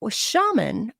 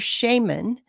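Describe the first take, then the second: First: It is said with an American pronunciation. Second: It is said with a British pronunciation. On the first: "is the U S or the i- American pronunciation" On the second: "is the British English pronunciation"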